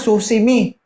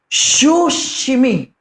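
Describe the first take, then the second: First: The word begins with a plain s sound. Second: The word begins with a sh sound. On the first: The speaker calls it wrong. "Yung narinig ko, sir" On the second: The speaker calls it right. "Yun na"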